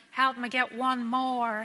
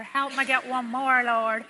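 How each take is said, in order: First: Drawn-out half-joking plea to God; slow joking plea. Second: Slow, louder mock-imploring plea; pleading joke prayer. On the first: Retold or imitated. Nurse jokingly asks the Lord for one more, slow plea. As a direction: stretch it out like a lighthearted prayer. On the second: Nurse jokingly begs the Lord for another, louder plea. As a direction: beg the Lord with a playful edge.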